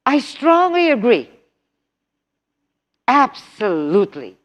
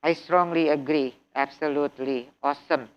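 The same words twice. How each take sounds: First: "strongly" punched high and loud, meaning it; really mean "I strongly agree", stress "strongly" up high; lively intonation. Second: "I strongly agree" said low, quiet and monotone; flat robot read, "strongly" with no lift at all. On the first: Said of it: "Speaking is using intonation". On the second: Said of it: "You cannot speak like robots". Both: Shown as a demonstration.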